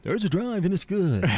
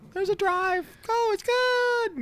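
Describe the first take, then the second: First: The voice is deeper-pitched. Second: The voice is higher-pitched.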